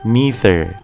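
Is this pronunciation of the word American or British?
American. It is said with an American pronunciation. "จะเป็นการออกเสียงแบบคนอเมริกัน"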